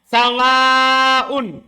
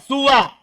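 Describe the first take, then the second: First: The s carries an a vowel, ending long. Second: The s carries a short u vowel. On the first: "dibaca mat panjang... di fathah sinnya" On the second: "Dengan dibaca qasr juga... sinnya di dhamma"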